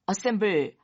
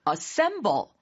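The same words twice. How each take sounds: First: The stress is not on the middle syllable. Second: The stress is on the middle syllable. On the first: The speaker calls it wrong. "assemble 하시면 잘 못 알아듣고" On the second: The speaker calls it right. "이렇게 돼야 되더라고요. 액센트가 딱 중간에 있죠?"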